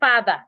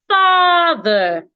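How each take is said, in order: First: The first vowel is short. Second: The first vowel is long. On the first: The speaker calls it wrong. "Don't say father. Father is wrong" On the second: The speaker calls it right. "the letter A here makes a long sound"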